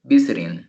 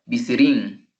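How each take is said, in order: First: Visiting correctly stressed on VIS, VIS-it-ing; stress on first syllable. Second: Visiting wrongly stressed in the middle, vi-SIT-ing; stress on second syllable. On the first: Teacher gives the real pronunciation of visiting, first-syllable stress. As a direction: hit the first syllable of visiting, let the rest fall. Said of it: "Pero la pronunciación es". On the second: Teacher shows visiting if accented second, second-syllable stress. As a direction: move the weight onto the second syllable of visiting. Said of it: "si lo tuviera en la segunda".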